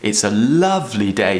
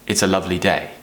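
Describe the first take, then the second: First: It is lively, with a rising, stressed lovely. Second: It is flat and bored, with little emphasis. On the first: The speaker calls it right. "we take that tone up a little bit more and add a bit more passion" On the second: The speaker calls it wrong. "I need to not sound like a robot or like a bored person"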